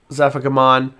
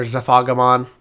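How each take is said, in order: First: Zephagamon, front-stressed as ZEF-uh-guh-mon. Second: Zephagamon, the other way: zuh-FAH-guh-mon. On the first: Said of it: "I say Zephagamon". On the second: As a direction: stress the second syllable of Zephagamon, FAH. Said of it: "other people pronounce it the other way". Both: Shown as a demonstration.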